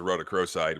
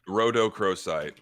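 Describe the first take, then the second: First: It is said at normal conversational speed. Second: It is said slowly and deliberately.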